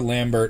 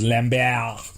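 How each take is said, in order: First: Lambert is said the English way, ending in 'bert'. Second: Lambert is said the French way, ending in 'bair'. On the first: The speaker calls it wrong. "For years I pronounced it" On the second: The speaker calls it right. "only to find out that it's"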